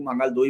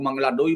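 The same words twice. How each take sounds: First: मंगल दोई with a short clipped मंगल and a soft dental द in दोई; Mangal Doi pronunciation. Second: मंगला डोई with a long final a in मंगला and a retroflex ड in डोई; Mangla Doi pronunciation. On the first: Explaining the seat's name to viewers, saying मंगल दोई with short मंगल and dental द. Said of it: "किसी लोग मंगल दोई बोलते हैं". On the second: Explaining the seat's name to viewers, saying मंगला डोई with a long a and hard ड. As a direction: say मंगला डोई, the way some locals say it. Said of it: "कुछ लोग मंगला डोई बोलते हैं". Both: Shown as a demonstration.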